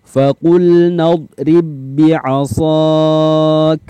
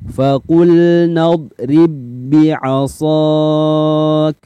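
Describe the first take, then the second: No difference in how they are said.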